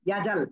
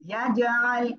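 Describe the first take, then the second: First: The middle throat sound is dropped entirely. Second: The middle throat sound is clearly pressed out. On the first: The speaker calls it wrong. "ইয়াজাল বললে ভুল হয়ে যাবে" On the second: The speaker calls it right. "আইনটা যদি আ আ গলাটা না চেপে পড়েন তাহলে কিন্তু একেবারে ভুল হবে"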